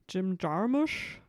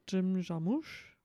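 First: The name is said with American pronunciation. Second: The name is said with French pronunciation.

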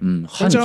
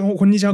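First: It is said slowly and carefully. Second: It is said very fast, repeatedly.

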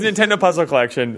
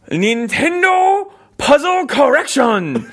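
First: It is said in the speaker's normal accent. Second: It is said with a put-on Japanese accent.

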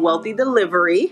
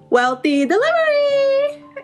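First: It is said plainly in normal speech. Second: It is said with energetic announcer flair.

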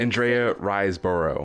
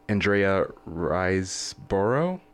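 First: The name is said firmly and with confidence. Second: The name is said hesitantly, like a question. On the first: The speaker asserts the name as certain. The speaker calls it right. "Just say it with your chest" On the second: The speaker is unsure of the name. The speaker calls it wrong. "Why are you questioning it?"

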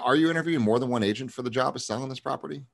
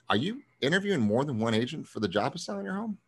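First: The voice stays level, without an upswing. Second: The voice swings upward, sounding doubtful.

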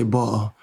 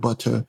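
First: It is said in a London accent. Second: It is said in a standard accent. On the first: "like a Jamaican here in like with the London accent" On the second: "instead of butter"

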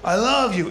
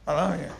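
First: It is said bluntly and directly, face to face. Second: It is said nervously, barely getting the words out. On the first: The feeling is stated plainly and literally. "in their face. Very on the nose, very literal" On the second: The speaker is nervous and shy about the feeling. "You see how I could barely say it?"

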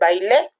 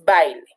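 First: The stress is on the last syllable. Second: The stress is on the first syllable. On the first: It is a past-tense verb. The speaker calls it wrong. "la sílaba tónica es la sílaba le y no es bailé en un tiempo pretérito" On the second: It is a noun. The speaker calls it right. "es baile, sustantivo. Entonces, la sílaba tónica de la palabra baile es bai"

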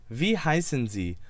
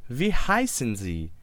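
Both takes have the same delivery.

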